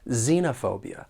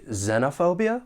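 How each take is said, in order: First: The first syllable has a long E vowel. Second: The first syllable has a short E vowel. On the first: "short E or long E in the first syllable" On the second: "like I've been saying"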